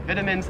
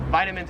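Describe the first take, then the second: First: "Vitamins" as VIT-a-mins; short i opening "Vitamins"; Australian pronunciation. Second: "vitamins" as VY-ta-mins; long i in "vitamins"; American pronunciation. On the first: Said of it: "it just sounds wrong". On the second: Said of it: "say vitamins is right". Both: Shown as a demonstration.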